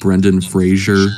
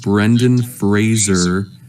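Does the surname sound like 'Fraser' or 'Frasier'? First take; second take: Frasier; Fraser. First: The surname is said as 'Frasier', with 'zh'. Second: The surname is said as 'Fraser', without 'zh'. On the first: The speaker calls it wrong. "everyone's just pronouncing been pronouncing his name wrong" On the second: The speaker calls it right. "his name is pronounced Brendan Fraser"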